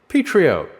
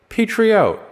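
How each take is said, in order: Both takes have the same delivery.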